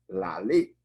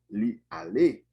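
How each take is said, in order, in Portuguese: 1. O pronome se junta ao verbo e forma uma só palavra. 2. O pronome é uma sílaba separada e completa. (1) "vai ficar lale" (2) "A gente tem aqui li ale"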